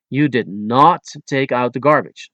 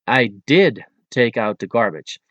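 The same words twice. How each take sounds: First: "not" stressed in an accusation. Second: "did" given extra strong emphasis; stress on DID. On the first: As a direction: lean on the word "not". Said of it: "put an extra strong emphasis". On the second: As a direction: hit the verb "did" to contradict. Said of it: "emphasis on the verb in the sentence". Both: Shown as a demonstration.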